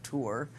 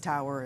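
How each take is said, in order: First: The word sounds like 'tour', with one syllable. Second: The word sounds like 'tower', with two syllables. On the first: This is the ordinary English pronunciation. "instead of tour, like we would know in the English language" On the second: This is the oil and gas industry pronunciation. "somehow that was pronounced tower"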